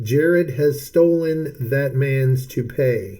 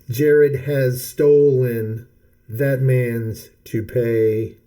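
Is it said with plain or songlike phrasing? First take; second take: plain; songlike. First: It is said with plain speech phrasing. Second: It is said with the song's phrasing.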